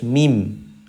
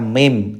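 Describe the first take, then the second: First: The vowel is kept pure and straight. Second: The vowel is tilted away from a pure sound. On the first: The speaker calls it right. "Harus mim" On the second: The speaker calls it wrong. "Jangan sampai imalah atau miring. Contoh, dibaca mim, tidak boleh"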